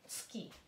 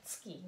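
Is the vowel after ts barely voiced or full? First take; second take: barely voiced; barely voiced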